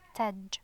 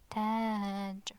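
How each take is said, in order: First: The vowel is short. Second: The vowel is long. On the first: "just a short ah" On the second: "with alif it's taj"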